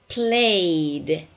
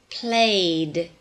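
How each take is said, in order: No difference in how they are said.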